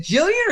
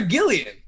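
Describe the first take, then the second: First: "Jillian" said with a J sound; soft-G pronunciation. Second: "Gillian" said with a hard G as in "go"; hard-G pronunciation. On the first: Host asking the guest her name, "Jillian" with soft G. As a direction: open "Jillian" like "jill", as one option. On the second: Host asking the guest her name, "Gillian" with hard G. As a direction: open "Gillian" like "gill", as the other option. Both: Shown as a demonstration. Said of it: "It's Jillian".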